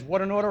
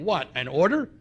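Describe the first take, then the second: First: It is said as one falling exclamation. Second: It is said as two rising questions. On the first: The demand feels overwhelming. The speaker calls it wrong. "I don't think it should be read that way" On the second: Being ordered is met with defiant disbelief. The speaker calls it right. "I think we should change the inflection"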